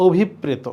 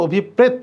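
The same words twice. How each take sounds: First: "অভিপ্রেত" as obhippreto; correct final O. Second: "অভিপ্রেত" as obhippret, stopping on T; final vowel dropped. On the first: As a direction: sound the O ending of "অভিপ্রেত". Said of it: "correct উচ্চারণ হচ্ছে". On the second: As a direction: cut "অভিপ্রেত" off at the t. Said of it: "শব্দটা কিন্তু অভিপ্রেত না". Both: Shown as a demonstration.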